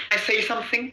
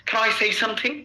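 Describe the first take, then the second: The two takes are said the same way.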